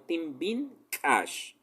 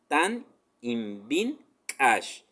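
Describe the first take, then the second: First: The first words are merged into one shorter word. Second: The first words are said separately, in full. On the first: "se contrae en, puedes decirlo" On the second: "es una palabra que dice Tan ibin Kash"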